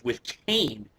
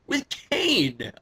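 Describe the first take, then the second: First: Said in the usual way. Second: High-pitched disbelief; incredulous. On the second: Real, not acted. Wrestling fan baffled by the unlikely partner, incredulous. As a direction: repeat it as if you can't believe it.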